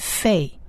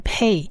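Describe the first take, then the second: First: It begins with an f sound. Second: It begins with a p sound. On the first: The letter has no dot in its middle. "就念成费，那它的发音就是发辅的音" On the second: The letter has a dot in its middle. "所以它的音就是Pei，发音发P 的音"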